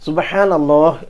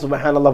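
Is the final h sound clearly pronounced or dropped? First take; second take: clear; dropped. First: The final h sound is clearly pronounced. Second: The final h sound is dropped or unclear. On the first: The speaker calls it right. "ഹാ ഉച്ചരിച്ച രൂപത്തിൽ" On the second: The speaker calls it wrong. "പോരാ, അത് സുബ്ഹാനല്ലാഹ് ആവില്ല"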